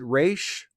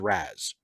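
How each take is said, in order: First: The name ends in an sh sound. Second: The name ends in a z sound. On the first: It follows the cartoon's pronunciation. The speaker calls it wrong. "I pronounce it Raish because of Batman the Animated Series" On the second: It follows the Arabic pronunciation. The speaker calls it right. "the more correct Arabic pronunciation is"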